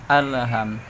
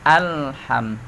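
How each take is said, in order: First: The L sound bounces with an extra echo. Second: The L sound is held steady without bouncing. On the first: The speaker calls it wrong. "Kadang ditawalludkan" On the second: The speaker calls it right.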